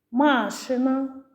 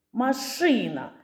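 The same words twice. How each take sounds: First: «Машина» with long stressed first а, MA-shyna; stress on first syllable. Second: «машина» with stressed и, ma-SHY-na; stress on second syllable. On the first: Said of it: "звуки в цих словах?". (наголос на перше «а» в слові «Машина») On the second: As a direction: lean on the и in «машина». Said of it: "а слова відрізняються". (наголос на «и» в слові «машина») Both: Shown as a demonstration.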